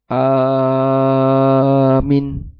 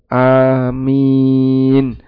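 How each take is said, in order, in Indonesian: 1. Hanya vokal pertama yang dibaca panjang. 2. Vokal pertama dan kedua keduanya dibaca panjang. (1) "Yang terjadi kadang dibalik orang. Ini kebalik ya" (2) "Dibaca A-nya dibaca dua harokat ya. Sedangkan min dibaca 6 harokat"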